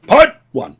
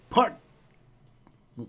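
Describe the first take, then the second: First: "Part" punched high, then "one"; emphatic redo. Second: "Part", a long pause, then "One"; stalled mid-phrase. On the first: Host correcting his fumbled title, emphatic redo. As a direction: say "Part one" together, hitting "Part" hard. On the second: Host losing his place in the title, stalled after "Part". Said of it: "my brain shut off for a moment". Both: Real, not acted.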